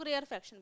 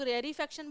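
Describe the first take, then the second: First: रेयरफेक्शन with r running straight into f; pronounced without linking ee. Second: रेयरीफेक्शन with an "ee" after the second r; pronounced with an extra ee. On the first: Teacher showing students the other variant of the term, रेयरफेक्शन said without the "ee". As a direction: say रेयरफेक्शन as rare-fection. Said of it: "कुछ लोग रेयरफेक्शन बोलते हैं". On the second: Teacher showing students one variant of the term, रेयरीफेक्शन said with the linking "ee". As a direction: say रेयरीफेक्शन as rare-ee-fection. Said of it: "कुछ लोग रेयरीफेक्शन बोलते हैं".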